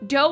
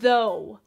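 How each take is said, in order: First: The word begins with a d sound. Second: The word begins with a th sound. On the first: "you take off the T H and you add the letter D" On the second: "Dough as in though"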